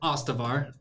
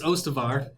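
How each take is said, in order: First: The name starts with an A sound. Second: The name starts with an O sound. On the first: The speaker calls it wrong. "It's not Ostavar. I keep doing it with a fucking A" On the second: The speaker calls it right. "So it's Ostavar"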